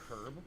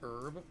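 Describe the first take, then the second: First: The word starts with an audible h sound. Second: The word starts with a vowel, no h sound. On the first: This is the British way of saying it. "in Great Britain they do say herb" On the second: This is the American way of saying it. "in the United States we pronounce it herb. We don't pronounce the H"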